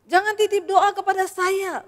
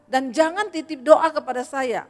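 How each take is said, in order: First: Higher and louder, pressing the point home; firm, insistent preacher's repeat; emphatic repeat. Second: Said in the usual way. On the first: Real, not acted. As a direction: hammer the warning the second time round.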